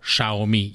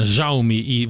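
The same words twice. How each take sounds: First: The name uses a simplified international pronunciation. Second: The first sound falls between s and z. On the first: This is the form the company recommends internationally. "a nemzetközi standard, amit a cég szeretne, az a Xiaomi, így kell kiejteni" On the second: This is how Chinese speakers say it. "egyszerre az S és a Z között van, tehát ilyen Xiaomi, valahogy így mondják ki"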